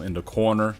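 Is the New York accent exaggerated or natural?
exaggerated. The New York accent is exaggerated and mocking. This is how others mock the speaker's accent. The speaker calls it wrong. "a lot of people make fun of the way I say um, in the corner. I, I don't say it like that"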